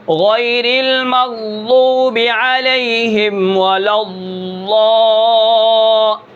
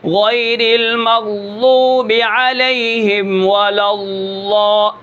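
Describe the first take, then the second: First: Ghayril maghdoobi drawn out very slowly, the dhad of المغضوب and الضال from the left side of the tongue; slow tajweed recitation with the ض of الضال released from the left. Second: غیر المغضوب علیہم ولا الضال slow, ض pressed from the right side of the tongue; drawn-out tajweed, ض from the right; right-side dhad. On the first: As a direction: chant غیر المغضوب علیہم ولا الضال very slowly in Quranic recitation, tongue on the left molars for ض. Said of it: "واد کو یہاں سے ادا کیا جائے بائیں جانب سے".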